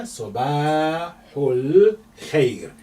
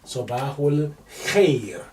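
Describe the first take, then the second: First: Sabahul Khair drawn out slowly, long vowels; lengthened vowels. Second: Said in the usual way. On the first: Shown as a demonstration. Teacher showing the lengthening letter, slow and drawn out. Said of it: "this is your lengthening letter". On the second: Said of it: "K H together is representing kha".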